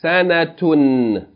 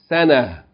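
First: The word ends with a t-sound and -un. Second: The word ends in a with no t-sound. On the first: The reading continues on without stopping. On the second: The reader stops on this word.

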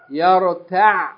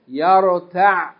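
The two takes are said the same way.

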